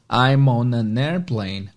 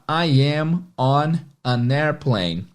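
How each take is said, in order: First: The words are contracted and run together. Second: Each word is said fully and separately. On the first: "em uma fala natural, um ritmo de fala natural, e contraído" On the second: "numa frase inteira"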